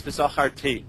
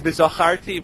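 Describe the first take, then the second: First: V'zacharti with the accent moved to the final ti; stress on last syllable. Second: V'zacharti stressed on the next-to-last syllable, char; stress shifted within V'zacharti. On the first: Teacher contrasting word accents, V'zacharti stressed on final ti. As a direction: hit the TI ending of V'zacharti. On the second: Teacher contrasting word accents, V'zacharti stressed on char. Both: Shown as a demonstration. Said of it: "where the accent changes the meaning".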